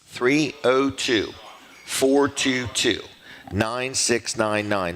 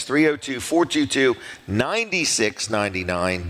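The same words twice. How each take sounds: First: Slow, spaced-out digits; slow dictation. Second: Said in the usual way. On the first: Real, not acted. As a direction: read the number out slowly, digit by digit. Dictating phone number to listeners.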